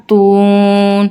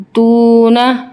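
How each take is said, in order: First: تون with the long vowel drawn out, slow; stretched stop. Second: Said in the usual way. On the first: Shown as a demonstration. Teacher to children, slow drawn-out stop on تون. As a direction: hold the و in تون one alif long. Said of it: "مد عارضی وقفی کا rule apply". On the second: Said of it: "نون زبر نا".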